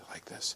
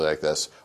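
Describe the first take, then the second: First: The voice is very soft and quiet. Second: The voice is very loud. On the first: "I can speak very softly like this" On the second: "I can speak very loudly like this"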